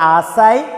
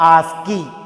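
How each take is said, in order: First: The k is silent and it ends in 'eye'. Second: The k is sounded and it ends in 'ee'. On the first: "ഏത് pronounce ചെയ്താലും correct ആണ്" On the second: "ഏത് pronounce ചെയ്താലും correct ആണ്"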